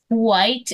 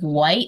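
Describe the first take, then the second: First: The word begins with a breathy 'hw' sound. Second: The word begins with a plain 'w' sound. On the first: This is an older way of saying it. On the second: This is the usual modern way of saying it.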